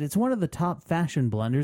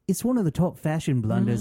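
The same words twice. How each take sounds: First: It is said in the speaker's usual accent. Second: It is said in a British accent.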